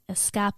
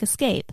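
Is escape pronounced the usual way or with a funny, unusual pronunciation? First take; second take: funny; usual. First: It is pronounced in an odd, funny way. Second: It is pronounced the ordinary English way. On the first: A character misreads the word. "she said escape. It sounds funny" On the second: This is the normal pronunciation. "It's spelled just like escape"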